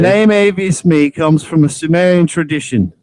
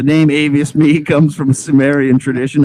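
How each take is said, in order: First: It is read in a put-on British accent. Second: It is read in the speaker's normal accent.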